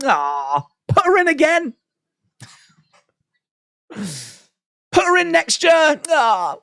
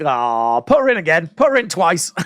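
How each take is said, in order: First: Much higher, slow, drawn-out "put her in again" with stress on "her"; gushing doting plea. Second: Mild, near-plain doting "put her in again", normal pitch; half-hearted fond plea, close to her own voice; lightly voiced fond plea. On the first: Retold or imitated. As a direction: swoon it out high and stretched like a smitten fan. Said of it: "And you're like". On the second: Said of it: "you're like".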